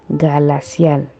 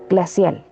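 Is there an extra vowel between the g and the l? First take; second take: yes; no. First: A vowel is inserted between g and l. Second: The g and l are said together. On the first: The speaker calls it wrong. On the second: The speaker calls it right.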